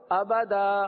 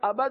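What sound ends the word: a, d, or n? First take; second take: a; d. First: The word ends with a long a vowel. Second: The word ends with a d sound. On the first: The speaker calls it right. "آگے وقف" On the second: The speaker calls it wrong. "آباد نہیں پڑھتے"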